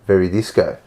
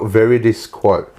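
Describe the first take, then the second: First: It is said fast, run together. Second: It is said slowly, word by word.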